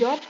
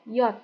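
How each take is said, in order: First: The letter is not said as 'yot'. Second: The letter is said as 'yot'. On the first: The speaker calls it wrong. "J bacanya bukan J" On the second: The speaker calls it right. "tapi J itu Y O T"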